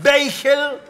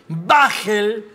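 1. La palabra se pronuncia a la manera inglesa. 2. La palabra se pronuncia a la manera española. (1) "Sería más o menos en inglés" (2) "sería en español"

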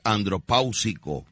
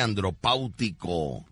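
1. La palabra termina en sonido 's': -sico. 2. La palabra termina en sonido 't': -tico. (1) "lo correcto es andropáusico" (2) "no se dice andropáutico"

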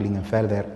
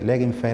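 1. El nombre se dice en su forma completa. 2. El nombre se dice en una forma abreviada. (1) "un apellido alemán" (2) "a día de hoy se dice Legenfer"

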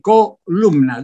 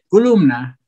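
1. La primera vocal suena como o. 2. La primera vocal suena como u. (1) "No dice columna" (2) "dice columna"

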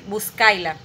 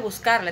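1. La r se reemplaza por un sonido i. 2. La sílaba termina con un sonido r claro. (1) "dice buscaila" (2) "no dice buscarla"

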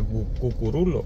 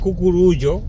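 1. La palabra se dice con un sonido de l normal. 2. La palabra sigue su escritura con doble l. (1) "pero se pronuncia Cucurulo" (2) "se escribe Cucurullo"

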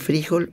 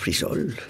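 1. La consonante del medio es una h fuerte. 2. La consonante del medio es un sonido s. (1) "¿Se dice frijol o frisol?" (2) "pronunciamos mal frisol"

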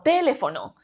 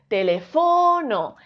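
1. La sílaba tónica es la primera. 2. La sílaba tónica es la tercera. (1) "Si la sílaba tónica de esta palabra fuese te" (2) "Si fuese fo"

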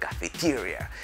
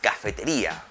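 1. Se dice con pronunciación inglesa. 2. Se dice con pronunciación española.

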